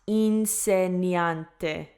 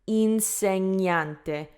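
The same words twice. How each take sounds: First: It has a separate n followed by an i. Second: The gn is one palatal ny sound. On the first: The speaker calls it wrong. "not insegnante" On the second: The speaker calls it right. "insegnante is correct"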